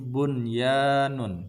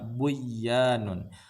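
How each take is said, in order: First: The n is pronounced clearly before the y. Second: The n merges into a doubled y sound. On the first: The speaker calls it right. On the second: The speaker calls it wrong.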